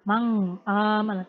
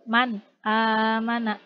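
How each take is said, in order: First: The n blurs into a nasal ng sound. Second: The n is pronounced cleanly and distinctly. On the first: The speaker calls it wrong. "tidak dileburkan ... Tidak seperti itu ya" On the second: The speaker calls it right. "Tapi jelas"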